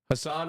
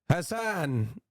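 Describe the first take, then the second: First: It is said in a plain, everyday accent. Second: It is said in a put-on Italian accent.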